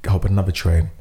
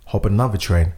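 Both takes have the same delivery.

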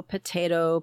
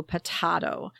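First: Potato said puh-TAY-toh. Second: Potato said puh-TAH-toh. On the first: Comparing ways words are pronounced, potato as puh-TAY-toh. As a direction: say potato with a long A in the middle. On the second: Comparing ways words are pronounced, potato as puh-TAH-toh. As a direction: say potato with a broad "ah" in the middle. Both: Shown as a demonstration. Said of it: "there are different ways".

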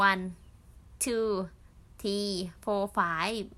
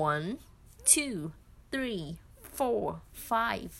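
First: Counting one two three four five in a Thai accent, slow. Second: One two three four five counted with native English sounds, crisp; native English accent. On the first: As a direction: say the numbers with a light Thai-English accent, drawn out. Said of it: "พูดเป็นสำเนียงภาษาไทยอะ". (นับเลขภาษาอังกฤษสำเนียงไทย ช้าๆ) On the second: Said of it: "ให้ได้สำเนียงเขาหน่อย แบบ". (นับ one two three four five ด้วยสำเนียงเจ้าของภาษา) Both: Shown as a demonstration.

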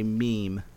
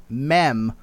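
First: "meme" with a long EE; correct pronunciation demo. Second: "mem" with a short E; mispronunciation demo. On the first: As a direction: say "meme" to rhyme with team. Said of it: "when you're trying to say meme". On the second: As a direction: say "mem" to rhyme with hem. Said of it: "don't say mem". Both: Shown as a demonstration.

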